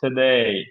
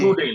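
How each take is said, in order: First: The stress is on the second syllable. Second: The stress is on the first syllable. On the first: The speaker calls it right. "যেইতে stress" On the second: The speaker calls it wrong. "Today না, টুতে stress দেওয়া যাবে না"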